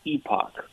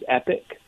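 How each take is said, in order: First: The second syllable sounds like 'ock'. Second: The second syllable sounds like 'ick'. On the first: This is the Canadian or British way of saying it. "If you're Canadian or British, it's epoch" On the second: This is the American way of saying it. "technical American pronunciation is epic"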